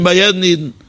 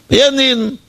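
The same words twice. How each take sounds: First: Said in the usual way. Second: Bei jedem Jeden said much higher, as a pointed repeat; emphatic repeat. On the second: Shown as a demonstration. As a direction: raise the pitch sharply on jedem Jeden to drive it home. Preacher repeats phrase for emphasis. (nachdrücklich wiederholt, deutlich höher)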